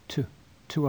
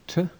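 First: The vowel in 'to' is a full vowel. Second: The vowel in 'to' is a reduced schwa. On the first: The speaker calls it right. "It's to ask" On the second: The speaker calls it wrong. "It's not to, because a vowel follows"

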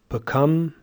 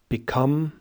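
First: The unstressed vowel is a schwa. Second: The unstressed vowel is a short i sound. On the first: "using schwa instead of I" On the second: "normal RP"

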